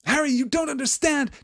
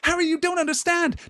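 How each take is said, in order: First: It is said in his normal reading voice. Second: It is said in an Arabella Figg voice.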